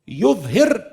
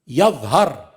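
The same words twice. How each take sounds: First: The first syllable has the vowel u. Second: The first syllable has the vowel a. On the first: Moses will cause corruption to appear in the land. "just the dhamma become fatha" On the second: Corruption may appear in the land, even if not by Moses. "just the dhamma become fatha"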